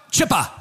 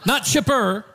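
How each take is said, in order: First: Chipper with no r, Australian style. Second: Said in the usual way. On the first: Retold or imitated. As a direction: say Chipper the Australian way, dropping the final r. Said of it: "and he goes".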